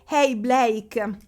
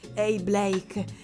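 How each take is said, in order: First: It is said in a plain reading voice. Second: It is said in a put-on sexy voice.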